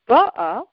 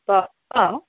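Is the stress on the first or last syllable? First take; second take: first; last. First: The stress is on the first syllable. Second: The stress is on the last syllable. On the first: She already came. "if it was on the first syllable, ba'ah, it would mean past" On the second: She is coming now. "when the accent is on the final syllable, it's in the present tense"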